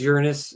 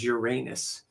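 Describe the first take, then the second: First: The word is pronounced in a softer way. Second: The word is pronounced in a sharper way. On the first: "Soft is Uranus" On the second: "sharper is Uranus"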